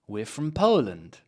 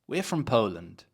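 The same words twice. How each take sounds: First: The word from is weak and unstressed. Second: The same.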